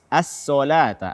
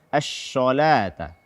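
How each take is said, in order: First: The s sound is a plain thin s. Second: The s sound is pronounced as sh.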